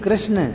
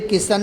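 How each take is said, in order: First: The name is said as 'krishna' with a cluster. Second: The name is said as 'kishan' with a vowel. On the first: The speaker calls it right. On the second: The speaker calls it wrong. "किशन नहीं"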